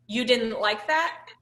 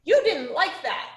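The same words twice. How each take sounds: First: Said in the usual way. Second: Mimicking a child copying. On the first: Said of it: "I see you said you can say". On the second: Shown as a demonstration. Teacher showing how Sam would repeat it, higher and childlike. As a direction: parrot it like a little kid would. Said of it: "he'd be saying".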